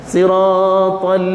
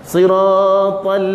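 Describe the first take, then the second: Both takes have the same delivery.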